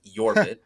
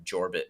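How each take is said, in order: First: Yorbit said with a Y as in yes, the corrected way; correct Y pronunciation. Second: Jorbit said with a hard English J as in jar; wrong J pronunciation. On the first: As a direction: start Yorbit with a clear Y sound like yard. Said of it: "pronounced with, like a Y sound". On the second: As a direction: say Jorbit with a J like jump, the old mistake. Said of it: "like a Y sound". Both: Shown as a demonstration.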